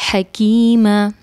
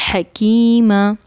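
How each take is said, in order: The two takes are said the same way.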